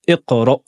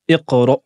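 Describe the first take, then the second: The two takes are said the same way.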